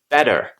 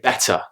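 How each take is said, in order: First: It is said in an American accent. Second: It is said in a non-American accent. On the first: "an American might say better" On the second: "when I say better"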